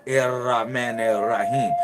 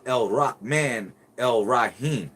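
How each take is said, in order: First: The article is said with an r sound. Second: The article is said with an l sound. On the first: The speaker calls it wrong. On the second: The speaker calls it right.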